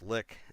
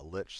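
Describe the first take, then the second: First: The word ends with a k sound. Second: The word ends with a ch sound. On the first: It sounds far less intimidating. The speaker calls it wrong. "some people argue it's supposed to be pronounced lick" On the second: It sounds cool and intimidating. The speaker calls it right. "Lich sounds cool"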